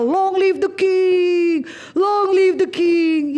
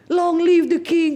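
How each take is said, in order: First: Slow, drawn-out hail to the king, higher; mock crowd chant, stretched out; carnival cheer. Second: Said in the usual way. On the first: Like a carnival crowd hailing the king, slow higher cheer. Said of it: "Kayak kita teriak karnaval". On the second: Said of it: "orang-orang lagi celebration".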